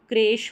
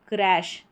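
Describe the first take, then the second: First: The vowel is closer, like in 'bed'. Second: The vowel is open, like in 'cat'. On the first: The speaker calls it wrong. "अगर इसको ए पढ़ते तो क्रेश होता, उच्चारण गलत हो जाता" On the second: The speaker calls it right. "क्र ए श"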